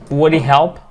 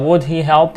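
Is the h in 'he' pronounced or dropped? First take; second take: dropped; pronounced. First: The h of 'he' is dropped and linked. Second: The h of 'he' is clearly pronounced.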